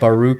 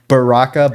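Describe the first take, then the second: First: The middle syllable has a 'u' vowel. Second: The middle syllable has an 'ah' vowel. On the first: The speaker calls it wrong. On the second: The speaker calls it right.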